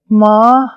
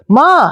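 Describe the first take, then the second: First: It sounds disappointed and dejected. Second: It sounds happy and excited.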